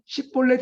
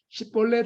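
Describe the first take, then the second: First: The first consonant is a tense, hard s. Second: The first consonant is a plain, soft s. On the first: The speaker is let through as a local. The speaker calls it right. "원래 십볼렛인데" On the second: The speaker is exposed as an outsider. The speaker calls it wrong. "십볼렛이라고 말하는 거죠 ... 시옷 발음을 했다가"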